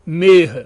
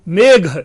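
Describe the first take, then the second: First: The middle consonant is a plain h. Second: The middle consonant is an aspirated gh. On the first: This is the Prakrit form. "मेघ की जगह पर मेघ हो रहा है" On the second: This is the Sanskrit form. "घ की जगह पर ह होना"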